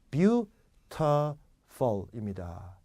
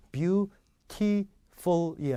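First: Beautiful in slow beats, "byu - tuh - fol"; unclear middle syllable. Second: Beautiful in slow beats, "byu - tee - fol"; too-clear syllables. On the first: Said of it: "분명하게". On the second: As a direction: separate each syllable, full "tee". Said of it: "beautiful이 아니라". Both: Shown as a demonstration.

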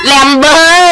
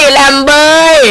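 Both takes have the same delivery.

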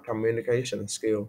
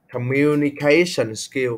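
First: Said in the usual way. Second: "Communication skill" slowed, with the inner syllables punched; teacher's slow stress demonstration of "Communication skill". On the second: Shown as a demonstration. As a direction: stretch out "Communication skill" to show where the stress falls. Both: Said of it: "Chị sẽ nhấn âm ba".

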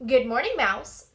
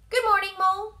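First: Mole. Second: High, loud, cheery greeting; Mouse. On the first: Mole greeting Mouse back, lightly voiced and loud. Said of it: "said Mole". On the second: Mouse greeting Mole at the door, high and loud. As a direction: sing out a high-pitched hello. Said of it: "said Mouse". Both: A narrator's reading.

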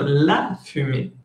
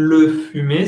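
First: "la fumée" modelled with stress on "la"; teacher models the correct "la fumée"; correct form. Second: "le fumé" given as the wrong version; teacher demo of the wrong "le fumé"; wrong form. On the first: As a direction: lean on the article "la" in "la fumée". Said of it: "sino la fumée". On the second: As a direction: say "le fumé" as the example of what not to say. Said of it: "no digan". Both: Shown as a demonstration.

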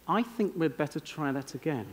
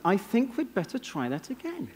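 First: Understated request. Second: Politely English, soft and higher-pitched; understated English accent, pitched up. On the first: Acted. Conductor to the orchestra after the first take, quietly understated. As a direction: say it quietly, as if reluctant to criticize. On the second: Shown as a demonstration. Showing an audience how to avoid criticizing, in an English accent. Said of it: "Say it in an English accent".

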